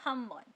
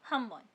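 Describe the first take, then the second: The two takes are said the same way.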